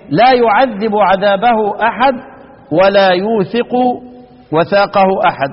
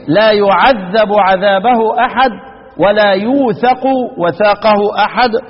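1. للفعلين حركة 'i' قبل الحرف الأخير. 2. للفعلين حركة 'a' قبل الحرف الأخير. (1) "والباقون يقرؤون" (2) "افتح يعذب وافتح ايه للمشار إليه بالراء، وهو الإمام الكسائي يقرأ"

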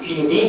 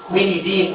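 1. الاسم يبدأ بصوت 'ki' عادي. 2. الاسم يبدأ بصوت 'kwi'. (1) "او كينيدين زي ما بتحب تنطقه" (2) "اسمه كوينيدين"

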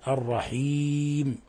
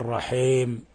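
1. صوت i واضح. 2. صوت i يميل نحو a. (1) "وإنما الرحيم" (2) "فليس هناك في علم التجويد والتلاوة الرحيم"

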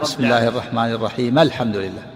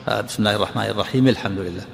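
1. الميم الأخيرة من الرحيم تُنطق بفتحة. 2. الميم الأخيرة من الرحيم تُنطق بكسرة. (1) "صلة بفتح الميم ومع صلة" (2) "وكسرت الميم لالتقاء الساكنين، وهم الجمهور"

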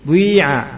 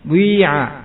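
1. Bunyi u yang membulat menyatu dengan vokal. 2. Bunyi u yang membulat menyatu dengan vokal.

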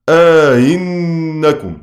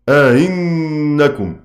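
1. المدّ الطويل يفصل بين الهمزة الثانية المسهّلة والأولى. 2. الهمزة الثانية المسهّلة تأتي بعدها دون مدّ زائد. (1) "لهما الإدخال مع التسهيل قولا واحدا" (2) "التسهيل بلا إدخال"

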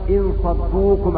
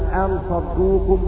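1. تبدأ الكلمة الأولى بالصائت 'i'. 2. تبدأ الكلمة الأولى بالصائت 'a'. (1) "بكسر الهمزة" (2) "بفتح الهمزة"

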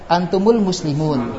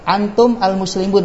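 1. Vokal penghubung menyambung antum ke kata berikutnya. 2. Antum diucapkan tanpa vokal penghubung tambahan.

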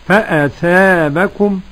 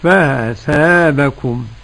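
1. تُنطق الهمزة كاملة وواضحة. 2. الهمزة مخففة، تكاد تنزلق مروراً. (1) "التحقيق" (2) "والتسهيل"

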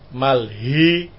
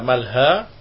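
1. Vokal akhir itu condong ke 'e'. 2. Vokal akhir itu bunyi 'a' terbuka.

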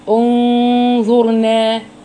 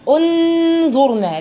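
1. النون مخفاة مع غنة. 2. النون تُنطق كاملة وواضحة. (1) "هنعمل اخفاء حقيقي بغنة" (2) "لن نأتي بالنون من مخرجها الطبيعي"

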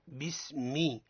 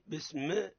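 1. بعد الميم الأخيرة حركة واضحة i. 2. لا توجد حركة واضحة بعد الميم الأخيرة. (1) "الصواب هو بسمي ما مي، حركة الكسر حركة تسافلية" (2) "حينما نقول بسم الله بسم، هذا خطأ"

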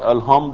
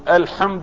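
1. تحتوي الكلمة على صوت h العادي الهوائي. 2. تحتوي الكلمة على صوت ḥ القوي الحلقي. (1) "أبدل بدل الحاء هاء" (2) "عوض أن يقول الحمد لله رب العالمين"

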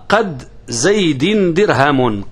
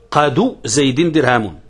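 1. تنتهي الكلمة الأولى بحرف ساكن. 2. تنتهي الكلمة الأولى بضمة قصيرة. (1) "قد بالسكون الدال" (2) "قاد بالرفع، رفع الدال"

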